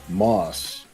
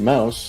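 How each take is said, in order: First: The name is said with the vowel of moss. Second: The name is said with the vowel of mouse. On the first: This is the father's serious pronunciation. The speaker calls it wrong. "my dad pronounces our last name Moss" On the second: This is the actual pronunciation. The speaker calls it right. "the actual pronunciation is actually Mouse"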